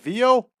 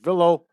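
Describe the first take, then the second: First: The name is said in a non-American style. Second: The name is said in an American English style. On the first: "That may be pronounced Vio" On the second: "in a regular American English style"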